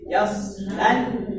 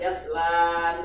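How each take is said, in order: First: The vowel after yasl is short. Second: The vowel after yasl is held long. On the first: The speaker calls it right. "Alif matnya dibuang" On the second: The speaker calls it wrong.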